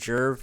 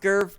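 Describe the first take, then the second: First: The name begins with a J sound. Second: The name begins with a hard G sound. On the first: This is a personal variant that sounds friendlier. "but I pronounce it Jerv" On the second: This is the accepted pronunciation of the name. "I know it's pronounced Gerv"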